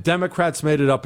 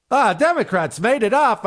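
First: Said in the usual way. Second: Higher, careless brush-off; sneering parody of a brush-off; dismissive mock quote. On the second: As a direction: toss it off like it's nothing, mocking. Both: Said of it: "is a ridiculous answer".

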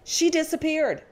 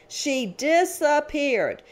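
First: Said in the usual way. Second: DISAPPEARED drawn out syllable by syllable, high; slow emphasis. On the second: Real, not acted. Prosecutor recounting her child victim vanishing mid-trial, slow emphasis. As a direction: stretch out "disappeared" slowly for dramatic weight. Repeats line for dramatic effect.

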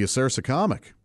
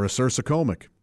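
First: Acersocomic said uh-SER-suh-COM-ic, short o; short-o pronunciation. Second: Acersocomic said uh-SER-suh-COME-ic, long o; long-o pronunciation. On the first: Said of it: "there were four different pronunciations". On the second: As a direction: say acersocomic with COM like comb. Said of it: "I think you can pronounce it". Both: Shown as a demonstration.

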